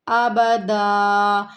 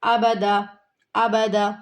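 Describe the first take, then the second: First: ابدا drawn out slowly with the alif held; slow correct reading. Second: ابدا said quickly, clipped short; rushed wrong reading. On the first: Teacher shows students the unhurried reading, slow. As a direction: stretch ابدا calmly and long. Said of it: "ہمیں تسلی کے ساتھ پڑھنا ہے". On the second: Teacher mimics students' hasty mistake, quick. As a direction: rattle off ابدا too fast. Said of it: "ایسے جلدی سے نہیں پڑھنا". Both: Shown as a demonstration.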